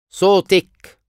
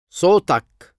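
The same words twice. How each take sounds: First: صوتك said sotek, ending in -ek; feminine you form. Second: صوتك said sotak, ending in -ak; masculine you form. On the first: Teacher drills the feminine form of your voice. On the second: Teacher drills the masculine form of your voice. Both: Shown as a demonstration.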